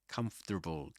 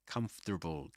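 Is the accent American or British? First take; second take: American; American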